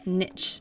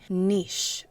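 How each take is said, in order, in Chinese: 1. 它的发音是美式的。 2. 它的发音是英式的。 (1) "而不是niche，那是美式英语" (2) "在英式英文中，它的发音为niche"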